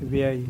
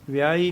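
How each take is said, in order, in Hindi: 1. इस शब्द का उच्चारण कोमल और हल्का है। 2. इस शब्द का उच्चारण कठोर और भारी है। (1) "ਪੋਲਾ ਜਿਹਾ ਬੋਲਣਾ" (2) "ਵਿਆਹੀ ਨਹੀਂ ਕਹਿਣਾ"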